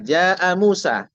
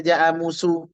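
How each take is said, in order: First: The name ends with an 'a' vowel. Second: The name ends with a 'u' vowel. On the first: The speaker calls it right. "Contohnya Musa" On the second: The speaker calls it wrong. "Tak boleh dibaca"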